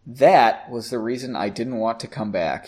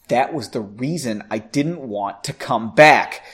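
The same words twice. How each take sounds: First: The line sounds only mildly angry. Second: The line sounds very angry. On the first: The speaker calls it wrong. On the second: The speaker calls it right.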